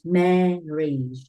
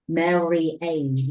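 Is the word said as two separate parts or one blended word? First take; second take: one word; two parts. First: It is said as one short blended word. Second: It is split into two parts, marry and age. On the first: The speaker calls it right. "We pronounce this word like marriage" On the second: The speaker calls it wrong. "We don't pronounce this word marry age"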